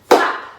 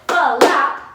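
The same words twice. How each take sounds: First: The word is said as one syllable. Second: The word is said as two syllables. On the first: The speaker calls it wrong. "One syllable" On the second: The speaker calls it right. "we have two sounds"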